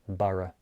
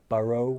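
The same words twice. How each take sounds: First: The final vowel is a relaxed, unrounded schwa. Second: The final vowel is said with rounded lips. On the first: The speaker calls it right. "I just release it into a lazy schwa sound" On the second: The speaker calls it wrong. "I don't say thorough, borough, and move my lips"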